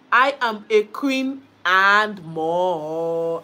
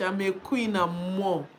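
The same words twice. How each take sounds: First: Slow, loud, drawn-out proud claim; slow regal boast; proud declaration. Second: Said in the usual way. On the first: Shown as a demonstration. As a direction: own the title, stretch each word.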